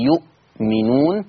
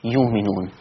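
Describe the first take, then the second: First: يؤمنون with a clear glottal stop before the و; Hafs reading. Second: يؤمنون with the hamza turned into a long و, yuminun; Warsh reading. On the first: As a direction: give يؤمنون its hamza, yu'minun. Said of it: "يقرأ حفص". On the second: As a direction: say يؤمنون softly with no glottal stop. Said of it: "ورش يقرأ". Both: Shown as a demonstration.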